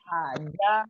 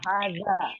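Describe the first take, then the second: First: The middle consonant is not a z sound. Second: The middle consonant is a z sound.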